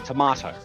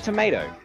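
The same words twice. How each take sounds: First: It is said with a British pronunciation. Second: It is said with an American pronunciation. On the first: "The British and the colonies say tomato" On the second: "The Americans say tomato"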